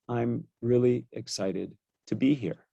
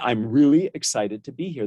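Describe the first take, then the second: First: The voice is flat, with little pitch variation. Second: The voice is lively, with much pitch variation. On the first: The speaker calls it wrong. "I would never come to you and say" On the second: The speaker calls it right. "invite and invoke that variation in my voice"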